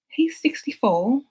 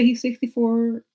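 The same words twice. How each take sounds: First: It is read in a put-on British accent. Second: It is read in the speaker's usual accent.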